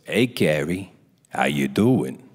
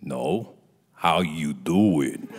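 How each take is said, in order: First: Deep, knowing imitated greeting; mock director's casual low drawl; Rob Reiner. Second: Very slow, low, pointed question; mock director seeing through the bluff; Rob Reiner. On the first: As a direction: drop low for a loaded hello. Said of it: "Just like that". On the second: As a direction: stretch it out deep and knowing. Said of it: "Like that".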